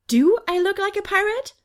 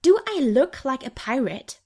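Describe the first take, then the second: First: Much higher, rising self-question; wondering to herself. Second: Snapping back. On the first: Angel inspecting her own clothes, incredulous. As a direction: ask yourself in disbelief. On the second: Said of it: "I snap back". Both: A narrator's reading.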